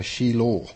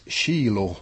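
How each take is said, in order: First: "Shiloh" with the stress on LOH; stress on last syllable. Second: "Shiloh" with the stress on SHI; stress on first syllable. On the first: Teacher correcting where stress falls in "Shiloh", stress on last syllable. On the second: Teacher citing a translation's word "Shiloh", stress on first syllable. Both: Shown as a demonstration. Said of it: "ska väl betoningen ligga".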